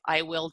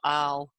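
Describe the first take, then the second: First: It is said as two full words. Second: It is said as one contracted syllable.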